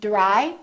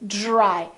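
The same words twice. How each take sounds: First: It starts with a plain d sound. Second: It starts with a soft j-like sound. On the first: The speaker calls it wrong. "So we don't say dry" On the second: The speaker calls it right. "we say dry"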